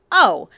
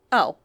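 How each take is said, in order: First: Loud, sudden startled oh; the penny drops, loudly; surprised. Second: Said in the usual way. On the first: A narrator's reading. Sudden realization in narration.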